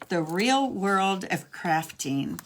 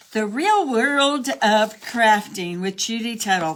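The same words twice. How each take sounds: First: Said in the usual way. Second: A hint of a grand announcer; half-joking title read; mock show title. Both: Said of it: "That's what I should call this".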